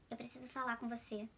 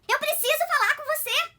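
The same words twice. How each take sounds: First: It is said in a sad, downcast tone. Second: It is said in an irritated, angry tone.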